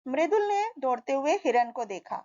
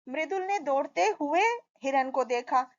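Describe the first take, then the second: First: There is a pause after 'मृदुल ने'. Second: There is a pause after 'दौड़ते हुए'.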